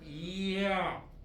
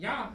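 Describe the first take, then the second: First: The vowel is drawn out slowly, gliding from i. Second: The vowel is said quickly as one sound. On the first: "천천히 오래" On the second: "그냥 듣기는 하나로 들리지만"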